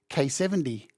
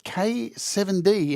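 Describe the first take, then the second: First: The name is said fast, running together. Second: The name is said slowly, letter by letter.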